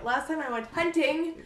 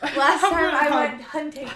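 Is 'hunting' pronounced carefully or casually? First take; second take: careful; casual. First: Hunting is said carefully, every sound clearly articulated. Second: Hunting is said casually, sounds loosely articulated.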